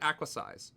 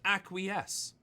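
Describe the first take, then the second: First: The last syllable sounds like 'size'. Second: The last syllable sounds like 'yes'. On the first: The speaker calls it wrong. "so I called it acquisize" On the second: The speaker calls it right. "But it's actually pronounced acquiesce"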